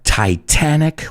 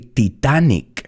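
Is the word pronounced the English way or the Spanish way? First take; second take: English; Spanish. First: It is said with a native English pronunciation. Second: It is said with a Spanish-style pronunciation. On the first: The speaker calls it right. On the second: The speaker calls it wrong.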